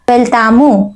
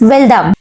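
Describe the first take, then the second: First: The word is said in full, with a final vowel. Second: The word is clipped, dropping the final vowel. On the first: This is the standard form of the word. "खरा शब्द काय आहे वेलतामू" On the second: This is the everyday spoken form. "इथं बोली भाषेत वेलदाम"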